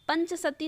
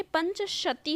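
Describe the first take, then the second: First: "पंचसती" with a plain s in sati; wrong sibilant. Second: "पंचशती" with a clear sh in shati; correct sh sound. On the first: Teacher quoting the error to students, mispronounced. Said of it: "पंचसती ना होके". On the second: Teacher correcting the word for students, pronounced properly. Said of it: "पंचशती होता है". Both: Shown as a demonstration.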